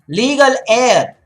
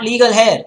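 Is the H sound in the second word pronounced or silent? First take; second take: silent; pronounced. First: The H at the start of heir is silent. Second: The H at the start of heir is pronounced. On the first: The speaker calls it right. "it's always legal heir" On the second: The speaker calls it wrong. "not legal hair"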